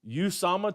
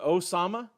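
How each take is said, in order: First: The name begins with an 'oo' sound. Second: The name begins with an 'oh' sound.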